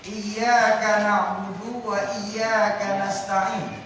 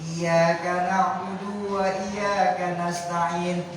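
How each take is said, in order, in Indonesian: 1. Bunyi y dalam iyyaka dibaca dobel. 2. Bunyi y dalam iyyaka pendek, tunggal.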